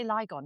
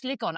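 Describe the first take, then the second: First: Lygon with a long i, LIE-gon; habitual mispronunciation. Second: Ligon with a short i, LIG-on; corrected pronunciation. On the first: Host owning up to the usual slip, Lygon as LIE-gon. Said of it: "I always say Lygon, don't I?". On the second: Host correcting the sponsor hotel's name, Ligon as LIG-on. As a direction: say Ligon to rhyme its start with "big". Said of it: "It's Ligon. I always say Lygon". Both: Shown as a demonstration.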